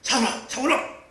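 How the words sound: It is called loudly and angrily.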